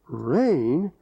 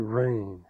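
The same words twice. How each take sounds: First: It sounds like a surprised question. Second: It sounds disgusted and fed up.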